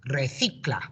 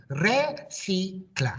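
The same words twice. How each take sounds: First: Recicla as one smooth word, re-THI-cla with a lisped c; sounds squeezed together. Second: Re, si, cla in three separate beats with gaps between; syllable by syllable. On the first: Teacher modelling the whole word for pupils to repeat, blended smoothly. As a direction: run the syllables into one word. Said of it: "really squeeze those sounds together". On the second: Teacher repeating Re, si, cla for the class syllable by syllable. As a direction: model each syllable apart for the children. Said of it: "My turn again". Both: Shown as a demonstration.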